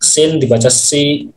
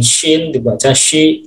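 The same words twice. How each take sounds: First: "si" with a plain, light s; plain s sound. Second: "shi" opening on a clear sh; sh sound. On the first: Teacher showing how sin with kasrah reads, plain-s pronunciation. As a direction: read "sin" and "si" with a simple s. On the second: Teacher showing how shin with kasrah reads, clear sh pronunciation. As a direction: read "shin" and "shi" with a hushing sh. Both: Shown as a demonstration. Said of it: "Kayak macam".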